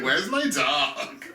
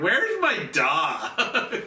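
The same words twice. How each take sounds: First: Put-on Valley Girl voice. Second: Put-on slow, slurred Valley Girl whine; drunk Valley Girl. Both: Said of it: "this perfect Valley Girl voice".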